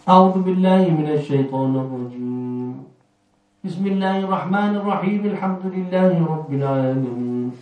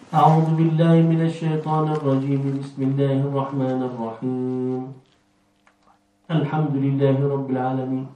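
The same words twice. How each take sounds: First: Pause falls only before the bismillah phrase. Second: Pause falls only after the bismillah phrase. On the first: The first part is separated and the last two are joined. "ده قطع الأول ووصل الثاني" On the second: The first two parts are joined and the third is separated. "وصل الأول والثاني وقطع الثالث"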